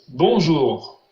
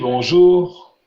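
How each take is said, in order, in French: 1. L'accent est sur la première syllabe. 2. L'accent est sur la dernière syllabe. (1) "vous avez mis de l'accent sur la première syllabe" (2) "vous avez mis l'accent sur la dernière syllabe"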